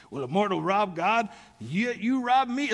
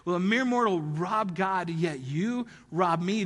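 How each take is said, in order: First: A hint of Rick's dramatic read, slowed on the second half; lightly voiced friend booming the verse; imitating Rick. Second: Slow, weighty stress on mere and you; dramatic reading. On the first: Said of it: "I can't do Rick's voice". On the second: Retold or imitated. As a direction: lean on you in yet you rob me. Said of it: "he nails it".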